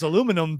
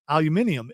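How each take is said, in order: First: It is said with four syllables, a-lu-mi-num. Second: It is said with five syllables, al-u-min-i-um. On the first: It sounds homespun and unsophisticated. The speaker calls it wrong. "aluminum just sounds like it was created in Kentucky" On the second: It sounds complex and scientific. The speaker calls it right. "I like the pronunciation of aluminium. It makes it sound complex and scientific"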